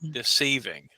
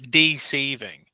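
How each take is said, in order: First: The stress is on the second syllable. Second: The stress is on the first syllable. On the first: "but I pronounce it" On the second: "some people do emphasize the first part"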